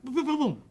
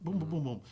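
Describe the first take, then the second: First: Loud, high mock gunfire, boom after boom; shouted gunshot sounds. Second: Said in the usual way. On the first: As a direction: bark out each boom like firing a gun. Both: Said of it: "So I'm like".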